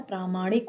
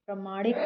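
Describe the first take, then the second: First: Said in the usual way. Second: प्रमाणिक opening with short प्र; short first vowel. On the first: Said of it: "होता है". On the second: Shown as a demonstration. Teacher rejecting a common error, short first vowel. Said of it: "नहीं होता है".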